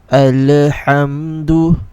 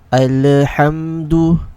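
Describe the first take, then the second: First: The l is released with a small bounce. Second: The l is released with a small bounce.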